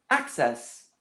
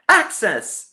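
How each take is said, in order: First: The word is said quietly. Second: The word is said loudly.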